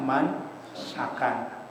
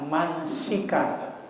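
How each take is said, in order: First: The vowel after the s is 'a'. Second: The vowel after the s is 'i'. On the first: "dibaca dengan dipatahkan sinnya" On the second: "boleh juga dibaca kasrah"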